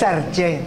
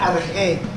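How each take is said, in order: First: The middle consonant is a hard 'ch' sound. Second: The middle consonant is a soft throaty sound. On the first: The speaker calls it wrong. "No es arche" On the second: The speaker calls it right. "se pronuncia arge"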